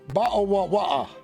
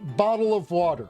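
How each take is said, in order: First: The t sounds are dropped as glottal stops. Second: The t sounds are fully pronounced. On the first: "the British be like" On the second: "some people be like"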